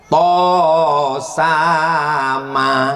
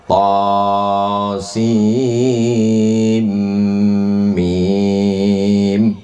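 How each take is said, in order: First: The letters are blended and read as one word. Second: Each letter is read out by its own name. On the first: Someone read it alone from the written text. The speaker calls it wrong. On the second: Someone learned it by listening to a teacher. The speaker calls it right.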